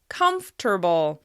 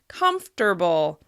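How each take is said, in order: First: The word is said with three syllables. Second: The same.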